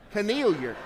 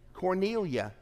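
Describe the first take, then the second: First: The word ends with an 'er' sound. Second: The word ends with an open 'ah' sound. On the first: "You pronounce it Cornelier" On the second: "I pronounce it Cornelia"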